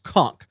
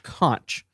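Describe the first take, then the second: First: The word ends with a k sound. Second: The word ends with a ch sound. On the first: The speaker calls it right. "It is pronounced conch. K O N" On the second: The speaker calls it wrong. "The pronunciation is not conch"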